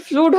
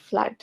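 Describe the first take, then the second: First: ফ্লুড said with a long "oo" vowel, flood-as-flude; wrong pronunciation. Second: ফ্লাড said with a short "uh" vowel like mud; correct pronunciation. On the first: Teacher showing students the common mistake ফ্লুড with an oo sound. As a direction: say ফ্লুড the wrong way, rhyming with food. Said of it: "এটাকে আবার ফ্লুড বলিও না". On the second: Teacher correcting students, saying ফ্লাড with a short uh. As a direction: give ফ্লাড the right short vowel, flud. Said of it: "না, এটা ফ্লাড". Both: Shown as a demonstration.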